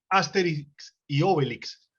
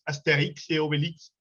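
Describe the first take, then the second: First: The stress falls before the final syllables. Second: The stress falls on the final syllables. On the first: This is how it is said in Medellín. The speaker calls it wrong. "nosotros les decimos Asterix y Obelix, pero no tiene tilde" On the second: This is how it is said in French. The speaker calls it right. "el acento va al final"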